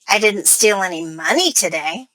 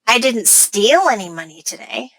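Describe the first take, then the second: First: The word money carries the main stress. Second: The word steal carries the main stress. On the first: The speaker stole something other than money. "That implies that I stole something else, not money" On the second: The speaker got the money some other way. "By putting stress on steal"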